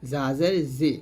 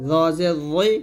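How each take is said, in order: First: Light buzzing জা and জি; thin Z. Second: Thick জ and rounded রই; heavy lisped Z. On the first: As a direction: keep জি thin and sharp. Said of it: "পাতলা করে". (পাতলা করে জা, জি) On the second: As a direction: fill the mouth on জ. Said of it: "মোটো হবে". (মোটা করে জ) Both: Shown as a demonstration.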